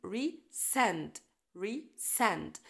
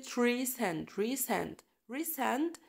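First: Resend, re light, send strong; stress on send. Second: Resend with send stressed, re light. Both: Shown as a demonstration. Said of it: "ال stress على send".

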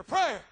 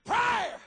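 First: Shouted single word prayer, falling; first hammer blow of the word Prayer; emphatic shout. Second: Prayer cried out much higher, falling; second, soaring cry of Prayer; high shout. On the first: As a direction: bark Prayer out as the punch line. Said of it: "Prayer gets you before Caesar". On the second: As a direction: leap up into Prayer, higher than the first. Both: Acted.

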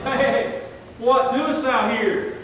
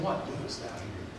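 First: Loud, slow, higher calling out; God rousing a believer at night, loud and slow; loud God's wake-up call. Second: Much softer, lower persistent question; God's still small voice nagging, soft and low; quiet inner voice. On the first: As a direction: wake the sleeper with God's question. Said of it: "keep waking you up at night and saying". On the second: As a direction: let it fall to a near whisper. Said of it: "Does he keep saying". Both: Retold or imitated.

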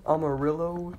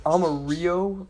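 First: "Amarillo" as am-uh-RILL-oh; second try. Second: "Amarillo" as ah-mah-REE-oh; first try, louder. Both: Shown as a demonstration.

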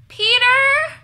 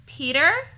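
First: High, loud shout of a name; long, high-pitched holler. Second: Questioning call, rising at the end; raised voice, higher and louder, lifting into a question. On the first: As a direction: shout to someone elsewhere in the house. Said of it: "she shouted". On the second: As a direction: call out to see if anyone is there. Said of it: "Carmen called". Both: A narrator's reading.

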